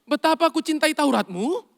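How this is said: It is said as a doubtful question. The speaker is unsure they really mean it. The speaker calls it wrong. "Anda pakai tanda tanya kan?"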